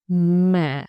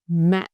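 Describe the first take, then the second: First: The pitch dips low and stays deep. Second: The pitch drops suddenly and stays short. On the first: "low deep" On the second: "short and low"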